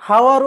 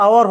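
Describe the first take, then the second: First: হাওয়ার opening on an audible H; হাওয়ার with the silent H sounded; wrongly sounded H. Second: আওয়ার opening straight on the vowel; আওয়ার with no H sound at the start; silent H. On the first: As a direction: say "hour" wrongly as হাওয়ার, H pronounced. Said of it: "উচ্চারণ কি হয়ে যাবে". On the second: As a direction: say "hour" as আওয়ার, dropping the H. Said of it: "এইচ এর উচ্চারণ হবে না". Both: Shown as a demonstration.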